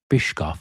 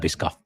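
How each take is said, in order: First: The middle of the name has an 'sh' sound. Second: The middle of the name has an 'sk' sound. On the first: The speaker calls it right. "it's pronounced like Eric Bischoff" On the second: The speaker calls it wrong. "I prefer Biscoff"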